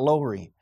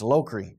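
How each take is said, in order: First: The middle sound is silent, with no k. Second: The middle sound is a clear k. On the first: The speaker calls it wrong. "It's not Lowry" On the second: The speaker calls it right. "It's Lokri. G-H, okay, that's what it is"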